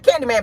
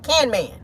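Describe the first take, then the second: First: Said in the usual way. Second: "Can Man" with the middle syllable dropped; toddler's shortened "Can Man"; child's mispronunciation. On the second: Shown as a demonstration. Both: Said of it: "not Candyman, but Can Man".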